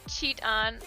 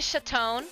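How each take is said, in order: First: The name starts with a sound like Cheetos. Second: The name is said in a fancier way. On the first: This is how people usually say the name. "The other way just reminds me of Cheetos" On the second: This is how the computer voice said the name. "Like how the uh, the bot said it? ... It makes me feel fancy"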